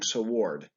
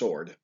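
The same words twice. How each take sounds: First: The W sound is pronounced after the S. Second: The W sound is silent after the S. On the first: The speaker calls it wrong. "unless you're saying sword. But we don't say it that way" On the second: The speaker calls it right. "It's just sword"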